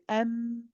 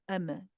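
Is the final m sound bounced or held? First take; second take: held; bounced. First: The m sound is held a little longer. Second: The m sound is bounced and cut short. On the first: The speaker calls it right. "hold the meme for a little bit at the end" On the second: The speaker calls it wrong. "Um is incorrect"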